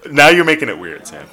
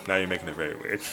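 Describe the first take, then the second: First: Loud, laughing complaint; loud protest. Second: Softer, mumbled repeat; quiet aside. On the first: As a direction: push back loudly, amused. Teasing co-host, loud laughing protest. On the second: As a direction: drop it to a muttered aside. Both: Real, not acted.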